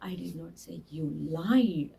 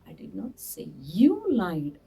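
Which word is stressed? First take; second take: lied; you. First: The word lied carries the stress. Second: The word you carries the stress. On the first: The listener may have done something else wrong. "ಆ ಲೈಡ್ ಮೇಲೆ ಒತ್ತು ಕೊಟ್ಟರೆ" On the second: Someone else may have lied. "ಬೇರೆ ಯಾರೋ ಸುಳ್ಳು ಹೇಳಿದ್ರು ಅಂತ ಹೇಳಿರ್ಬೋದು ಅಂತ ಅರ್ಥ ಆಗುತ್ತೆ"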